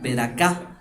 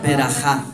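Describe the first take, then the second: First: The third consonant is a hard k sound. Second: The third consonant is a throaty guttural sound. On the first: "La J puede también sonar como K" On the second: "Berajá, así"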